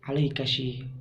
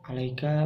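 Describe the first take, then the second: First: The word ends with an added 'shi' sound. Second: The word ends plainly in a 'ka' sound. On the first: This is the dialect form of one tribe. "menjadi alaikashi" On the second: This is the standard form. "alaika menjadi"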